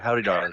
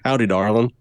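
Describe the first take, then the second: First: It is said with a mild, ordinary accent. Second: It is said with a strong Texas accent.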